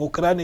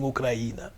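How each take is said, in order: First: The stress falls on the syllable cra. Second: The stress falls on the i. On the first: This is the Spanish form of the name. "ellos no dicen Ucrania" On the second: This is how Ukrainians and Russians say the name. "la acentuación es en la I"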